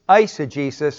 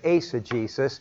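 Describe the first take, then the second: First: The first syllable sounds like 'ice'. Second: The first syllable sounds like 'ace'. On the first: This is the customary pronunciation. "I don't know why they say ice" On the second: This follows how the letters are pronounced in Greek. "because the diphthong is ace, so I'm going to say eisegesis"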